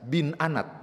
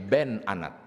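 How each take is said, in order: First: The first word is said with an 'i' vowel. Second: The first word is said with an 'e' vowel. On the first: The speaker calls it wrong. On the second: The speaker calls it right.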